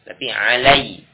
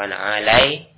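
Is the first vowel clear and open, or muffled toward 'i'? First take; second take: clear; muffled. First: The a vowel is clear and fully open. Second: The a vowel is unclear and drifts toward i. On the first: The speaker calls it right. "Fathah dibaca dengan jelas" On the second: The speaker calls it wrong.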